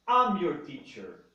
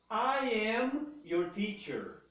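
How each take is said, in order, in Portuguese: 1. O início é reduzido a um som curto de 'am'. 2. Ambas as palavras são ditas completas e separadas. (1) "a mais compacta de todas as pronúncias" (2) "I am"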